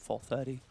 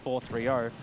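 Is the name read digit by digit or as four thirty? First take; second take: four thirty; digit by digit. First: The name is read as four thirty. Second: The name is read as separate digits. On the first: The speaker calls it right. "As I should say his name" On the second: The speaker calls it wrong. "I'm wrong"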